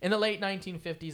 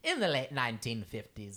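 First: It is read in the natural own accent. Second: It is read in a put-on British accent.

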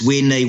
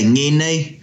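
First: It is said another region's way, starting with w. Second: It is said the Tainui way, starting with ng.

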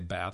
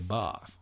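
First: It is said with an American accent. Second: It is said with an English accent. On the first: "we Americans say bath" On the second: "I'm sure the English say bath"

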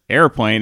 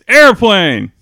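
First: The word is said flatly, without excitement. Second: The word is said with exclamatory excitement.

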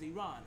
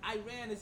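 First: It uses the native pronunciation of the name. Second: It uses the American pronunciation of the name. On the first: "in their own dialect and accent, which is Iran" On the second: "Iran is the American enunciation of it"

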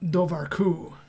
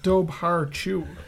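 First: The name is said with its Irish pronunciation. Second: The name is read out just as spelled. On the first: The speaker calls it right. "but it's actually" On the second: The speaker calls it wrong. "I would have said, like"

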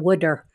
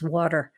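First: It is said in a Philadelphia accent. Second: It is said in a general American accent.

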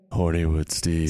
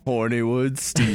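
First: It is said in a smooth, seductive voice. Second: It is said in an ordinary speaking voice.

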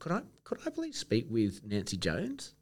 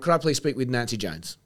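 First: The voice sounds weak and low in energy. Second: The voice sounds strong and authoritative. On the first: The speaker calls it wrong. "You sound weak" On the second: The speaker calls it right.

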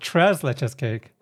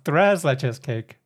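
First: Tres begins with a hard English t sound. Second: Tres begins with a soft, th-like t sound. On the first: The speaker calls it wrong. "It's not Tres Leches Cake" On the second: The speaker calls it right. "it's Thres Leches Cake"

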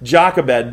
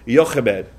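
First: The name is said plainly, without a throaty sound. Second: The name has a harsh, throaty, coughing sound. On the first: "today I'm going to call her Jochebed" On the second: "the Hebrew pronunciation would have been Jochebed, okay? And it sounds like you're like coughing something out"

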